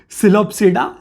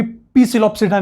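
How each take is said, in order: First: "सिलोप्सिडा" said as si-lop-si-da, P silent. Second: "पी सिलोप्सिडा" with the P spoken aloud as pee; wrong P sounded. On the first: Teacher shows students the right reading, "सिलोप्सिडा" with a silent P. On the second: Teacher mocks the wrong reading for students, P voiced in "पी सिलोप्सिडा". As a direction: sound out the silent P at the start of "पी सिलोप्सिडा". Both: Shown as a demonstration. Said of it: "इसका पी silent है".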